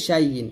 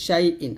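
First: শাই ইন run together as shai-yin; slurred y in place of the catch before ইন; common mistake demo. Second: শাই ইন with ইন begun cleanly from the throat, no y glide; throat-onset hamza. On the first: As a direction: glide from শাই into ইন with a y, losing the hamza. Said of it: "আমরা বলি". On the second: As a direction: keep শাই and ইন apart, a glottal catch before ইন. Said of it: "হলকে শুরু থেকে বলতে হবে". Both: Shown as a demonstration.

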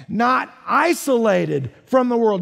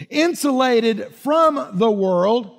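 First: "Not isolated from the world" slowed, leaning on "Not" and "isolated"; slow stressed contrast. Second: "insulated from the world" drawn out slowly, leaning on "insulated"; slow and deliberate on "insulated", setting up the contrast; slow stressed contrast. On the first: Pastor contrasting the wrong word for the congregation, slow and pointed. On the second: Pastor teaching the congregation a key word, slow and deliberate. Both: Shown as a demonstration. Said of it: "Do you see the difference?".

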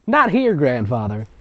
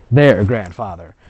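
First: "not here" punched to mock the typo; stress on not here. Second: "their" stressed as the correction. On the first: Reader mocking the typo again, stressing "not here". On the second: Reader correcting the typo, stressing "their". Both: Shown as a demonstration.

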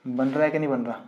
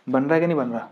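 First: Said in the usual way. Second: Teacher re-asks the class more loudly; louder repeat. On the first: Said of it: "teacher repeats question to class". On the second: Shown as a demonstration. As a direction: repeat the question louder, pressing for an answer. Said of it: "teacher repeats question, pressing class".

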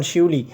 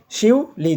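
First: Said in the usual way. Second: শিউলি split as শিউ, then লি, higher pitched; two separate beats. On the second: Shown as a demonstration. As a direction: say শিউলি in two pushes with a gap before লি. (শিউলি দুই ধাক্কায় ভেঙে উচ্চারণ: শিউ, লি) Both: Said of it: "দুইবার উচ্চারণ হবে".

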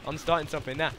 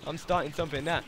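The two takes are said the same way.

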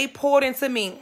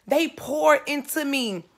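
First: Poured hit hardest; They poured into me with POURED stressed. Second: They slowed and leaned on; they poured into me with THEY stressed. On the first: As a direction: punch the word poured. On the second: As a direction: press hard on they, drawn out. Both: Shown as a demonstration.

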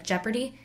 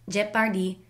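First: Said in the usual way. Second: Put-on "Jeopardy" with a Filipino accent, middle vowel opened to "par"; Filipino-accented "Jeopardy", full vowels and a crisp p. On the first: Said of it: "learning the correct English pronunciation". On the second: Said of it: "with a Filipino accent".

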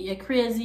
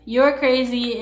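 First: "You're crazy" in Jamaican Patois, "crazy" as "krizi". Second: Said in the usual way. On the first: Shown as a demonstration. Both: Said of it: "in Patois would be".

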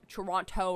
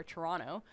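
First: TORONTO with both t sounds, "To-ron-toe"; Toronto with crisp T. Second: TORONTO said loosely as "Toronno"; Toronto without second T. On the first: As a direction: sound the second t in Toronto fully. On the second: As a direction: let the second t in Toronto vanish. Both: Shown as a demonstration. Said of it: "I don't wanna say it's, like".

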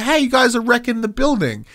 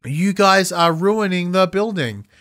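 First: Much higher, urgent and worked up; exasperated outburst; emotional version. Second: Slow, slightly higher and lifeless; deliberately unconvincing line reading; mock flat delivery. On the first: Shown as a demonstration. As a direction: show how it should have landed. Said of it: "did not deliver any of that emotion". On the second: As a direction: say it with no real emotion. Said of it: "The comedy wasn't there".

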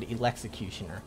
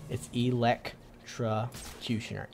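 First: "electrocutioner" slipped into e-lex-i-cutioner; mispronounced, syllable missing. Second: "electrocutioner" slowly broken into ee-lec-tra-cutioner; careful correction. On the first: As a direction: say "electrocutioner" with lex-i in place of lec-tro. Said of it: "I almost said it again". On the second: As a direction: spell out "electrocutioner" slowly, chunk by chunk, with the tra sounded. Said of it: "I almost said electrocutioner". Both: Shown as a demonstration.

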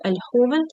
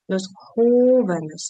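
First: "joven" stressed on its first syllable, jo-; teacher's model "joven", first syllable stressed; stress on penultimate syllable. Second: "jóvenes" with a long, loud first syllable, JÓ-; slow demonstration of first-syllable stress in "jóvenes"; stress third from end. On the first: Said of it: "Наголос був на передостанньому". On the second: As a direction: stretch and punch the JÓ in "jóvenes". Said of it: "а у множині на третьому від кінця". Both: Shown as a demonstration.

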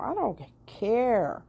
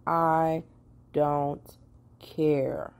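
First: "I don't care" drawn out high and slow; emphatic. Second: "I don't care" with a pause before each word. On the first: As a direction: lean on "I don't care" slowly. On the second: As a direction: space out "I" "don't" "care" one at a time. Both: Shown as a demonstration.

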